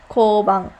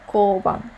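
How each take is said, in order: Both takes have the same delivery.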